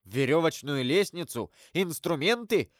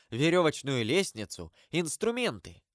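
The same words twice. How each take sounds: First: Mildly excited, eager guess; exclaimed guess. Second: Said in the usual way. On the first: A narrator's reading. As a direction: blurt out the guess with some energy. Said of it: "воскликнул граф". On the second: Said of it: "сказал проводник".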